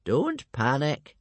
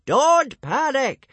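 First: Slow, measured reassurance; calm old man. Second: High, loud, drawn-out shout; slow yelling. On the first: Old Wrinkly calming the frightened tribe, calm voice. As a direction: say it slowly, without alarm. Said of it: "Only old Wrinkly remained calm". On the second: Old Wrinkly yelling over the panicking hooligans, slow shout. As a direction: yell each word slowly at the crowd. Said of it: "he started yelling". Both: A narrator's reading.

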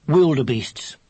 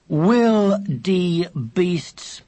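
First: Said in the usual way. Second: "Wildebeests" drawn out syllable by syllable; over-articulate "Wildebeests" for someone who misheard; slow enunciation. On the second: Acted. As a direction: say "Wildebeests" very slowly, higher, each part separate. Repeats the misheard word syllable by syllable.

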